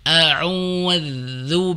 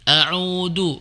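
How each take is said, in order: First: The middle consonant is a soft 'th' sound. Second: The middle consonant is a hard 'd' sound. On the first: The speaker calls it right. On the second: The speaker calls it wrong.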